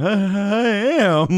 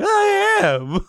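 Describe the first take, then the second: First: High, slow and dopey; drugged slow high reply. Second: Very high squeak on I am; squeaky drugged insistence. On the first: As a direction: drag it out, pitched up and dazed. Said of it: "I'm just like". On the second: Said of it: "I'm like". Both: Retold or imitated.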